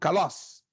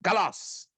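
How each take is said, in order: First: The accented vowel is high and short. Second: The accented vowel is high and short.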